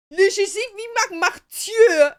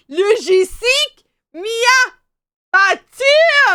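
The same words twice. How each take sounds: First: Imitating the delivery guy. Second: Slow, louder, dragged out, ending in a shout; mock slow speech. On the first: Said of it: "He was like". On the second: Delivery guy slowly repeating himself to her, mock slow loud. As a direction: spell it out slowly like to a foreigner. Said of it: "started, like, speaking slow".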